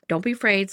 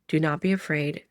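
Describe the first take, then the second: First: It is said in a casual Midwestern accent. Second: It is said in an old, biblical tone.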